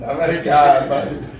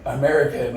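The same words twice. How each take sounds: First: Pleading repeat. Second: Said in the usual way. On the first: Retold or imitated. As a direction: drag out the word American pleadingly. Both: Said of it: "I start saying".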